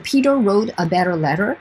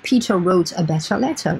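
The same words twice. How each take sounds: First: The t sounds are d-like flaps. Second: The t sounds are clear t's. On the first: "ici, je suis sur le American T" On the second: "je peux dire aussi"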